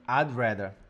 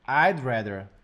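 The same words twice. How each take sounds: First: 'Would' shrinks to a soft, almost silent D. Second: The same.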